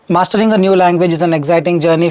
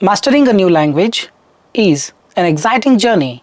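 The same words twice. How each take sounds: First: It is read smoothly without hesitations. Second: It is read with hesitations and fumbles. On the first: The speaker calls it right. "No hesitation, no fumbles" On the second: The speaker calls it wrong. "what is not the ideal way to speak"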